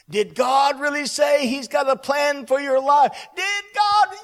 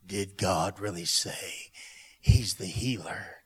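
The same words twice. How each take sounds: First: High, loud, building shout; enemy's shouted challenge. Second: Low, slow, sinister insinuation; voice of the enemy. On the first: Enemy's question thrown out by the preacher, loudly shouted. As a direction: shout the doubting question, climbing higher. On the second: Enemy trying to speak to the believer, low and insinuating. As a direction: plant doubt with a very low, dragging question. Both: Acted. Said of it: "the voice of the enemy is trying to speak".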